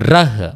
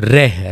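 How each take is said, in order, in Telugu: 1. అచ్చు చిన్న 'a' ధ్వని. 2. అచ్చు 'e' ధ్వని. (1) "ర మాత్రమే ఉందనుకోండి" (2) "రెహ్ అని పలుకుతాం"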